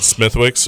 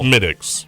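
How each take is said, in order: First: The middle w sound is pronounced. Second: The middle w sound is silent. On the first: The speaker calls it wrong. "you'd get beat if you went to Ireland and said Smithwick's" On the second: The speaker calls it right. "It's Smittix"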